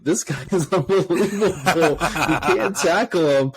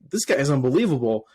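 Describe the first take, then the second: First: Laughing, higher amazed outburst; excited disbelief. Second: Said in the usual way. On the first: Retold or imitated. Fan recalling watching the rookie on Sunday, excited disbelief. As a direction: relive being amazed, laughing through the words.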